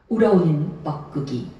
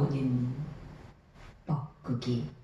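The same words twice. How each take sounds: First: The phrase is said at a plain, short length. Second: The sounds of the phrase are drawn out long. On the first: The speaker calls it wrong. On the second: The speaker calls it right.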